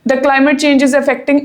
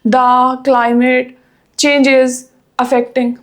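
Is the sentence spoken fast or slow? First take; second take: fast; slow. First: The sentence is rushed out very quickly. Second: The sentence is spoken very slowly and unevenly. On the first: "ਟੂ fast ਕਿੱਦਾਂ ਬੋਲਦੇ ਆ student ... ਇਹ ਬਹੁਤ ਤੇਜ਼ ਹੋ ਗਿਆ" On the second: "ਟੂ slow ਕਿੱਦਾਂ ਬੋਲਦੇ ਆ ... ਦੋ ਵਰਡ ਇਕੱਠੇ ਬੋਲਤੇ ਫਿਰ ਇੱਕ ਫੇਰ ਸਲੋ ਬੋਲਤਾ"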